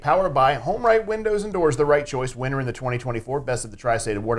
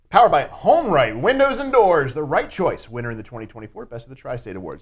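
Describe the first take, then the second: First: It is said with plain, modest energy. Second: It is said with big, over-the-top energy.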